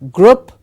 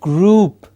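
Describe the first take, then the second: First: The vowel is a short sound. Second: The vowel is a long oo sound. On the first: The speaker calls it wrong. "heard it a million times mispronounced as group. It is not a short sound" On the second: The speaker calls it right. "It's a long oo sound. It is group"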